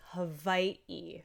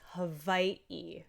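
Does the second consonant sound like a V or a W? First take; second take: V; V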